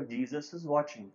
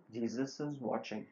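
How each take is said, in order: First: Mildly raised warning, still restrained; the distant voice, a little firmer; louder voice. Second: Soft, lower-key mysterious warning; voz mais baixa. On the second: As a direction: say it quietly, like a distant voice. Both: Retold or imitated. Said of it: "the voice became louder".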